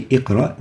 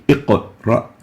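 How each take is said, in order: First: "iqra" with the q closed flat into the r, no bounce; "iqra" with a plain, unvibrated q; iqra without qalqala. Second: "iqra" with the q bounced strongly, then ra; "iqra" as iq-uh-ra, strong vibrating q; iqra with qalqala. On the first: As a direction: say "iqra" straight through, q unreleased. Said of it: "We don't say iqra". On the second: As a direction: slowly bounce the q in "iqra" with a brief echo before ra. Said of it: "pronounce it strong with vibration". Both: Shown as a demonstration.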